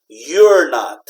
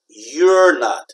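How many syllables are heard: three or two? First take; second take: two; two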